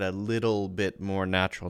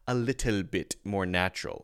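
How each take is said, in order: First: The T in 'little' is a soft, quick D sound. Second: The T in 'little' is a hard, crisp T sound. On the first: The speaker calls it right. "notice I said a little bit more natural" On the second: The speaker calls it wrong. "It sounds a little stiff sometimes when we overemphasize the T"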